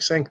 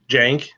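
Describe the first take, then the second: First: The name begins with an S sound. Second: The name begins with a J sound. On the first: This is how the spelling looks like it should sound. "that looks more like Sank to me" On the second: This is how the name is actually pronounced. "it's pronounced Jank"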